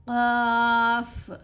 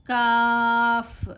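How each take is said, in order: First: "क़ाफ़" drawn out, with a soft throaty q at the start; soft qaf. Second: "काफ़" drawn out, with a crisp front k like an ordinary k; plain kaf. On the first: Teacher showing her class the soft qaf, slow and throaty. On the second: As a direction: say "काफ़" with a clear front k, slowly. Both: Shown as a demonstration. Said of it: "इसको soft पढ़ना है एकदम".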